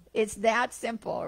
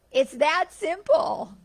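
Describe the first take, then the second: First: Said in the usual way. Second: "that" stretched, higher and louder, slow; stress on that. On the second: Real, not acted. Teacher driving home the lesson: "that" slow, high and loud. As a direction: lean hard on "that" in "It's that simple".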